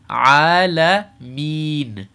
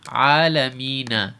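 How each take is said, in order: First: The word ends on the n consonant. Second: The word ends with a short a vowel. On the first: The reader stops at this point. "if I'm going to stop here" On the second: The reading continues without stopping. "we see Alamina"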